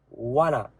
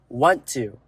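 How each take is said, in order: First: The two words are merged into a reduced form. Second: The two words are said fully and separately. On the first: "It's combined together in a word called wanna" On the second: "And it's want to"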